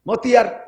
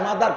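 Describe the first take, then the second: First: It has a t sound and extra vowels. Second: It has a d-like sound and two syllables. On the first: The speaker calls it wrong. "মতিয়ার নাকি কি হবে?" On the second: The speaker calls it right. "কে মাদার কব"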